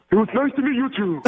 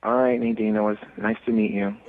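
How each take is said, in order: First: High, goofy cartoon-starfish voice; high put-on cartoon dimwit; Patrick. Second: Said in the usual way. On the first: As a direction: sign off as a dopey cartoon character. Switches into Patrick voice for goodbye.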